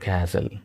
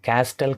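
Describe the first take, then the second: First: No t sound is heard after the s. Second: A t sound is heard after the s. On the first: The speaker calls it right. "So this is the answer" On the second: The speaker calls it wrong. "క్యాస్టెల్ కాదు"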